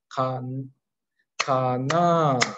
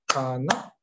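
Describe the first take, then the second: First: It is said over three beats, drawn out. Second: It is said over two short beats. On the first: The question is also put to people nearby. "ビットが3つ" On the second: The question is asked to oneself. "2つのビット"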